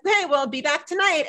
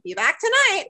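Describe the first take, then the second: First: Said in the usual way. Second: Higher parroting echo. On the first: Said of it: "Ethan's just like". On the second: Retold or imitated. Parrot echoing Ethan's goodbye, pitched higher. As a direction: mimic the parrot repeating the phrase back. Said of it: "He's like".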